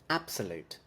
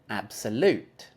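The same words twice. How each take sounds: First: The stress is on the first syllable. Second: The stress is on the third syllable.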